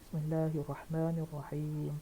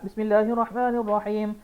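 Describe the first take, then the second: First: It is recited slowly. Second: It is recited quickly. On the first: The follower takes his time. "dia baca pelan-pelan" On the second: The leader of the prayer hurries. "Imam baca cepat"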